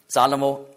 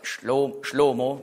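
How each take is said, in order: First: The name has three syllables starting with s. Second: The name has two syllables starting with sh. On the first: This is the usual German form of the name. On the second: This is the Hebrew form of the name.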